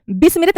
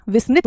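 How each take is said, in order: First: विस्मृत said "bis-mi-rit", with b; wrong pronunciation. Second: विस्मृत said "vis-mrit", with v; correct pronunciation. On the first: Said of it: "विस्मृत नहीं होता". (विस्मृत को 'बिस्मिरित' बोलना) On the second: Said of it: "विस्मृत होता है". (विस्मृत में 'वि' और 'मृ' साफ़) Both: Shown as a demonstration.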